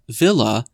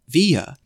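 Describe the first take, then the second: First: The middle consonant is a clear L sound. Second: The middle consonant is a Y-like sound. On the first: The speaker calls it wrong. "not Leah Villa" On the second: The speaker calls it right. "but actually Leah Via. ... pronounced like tortilla"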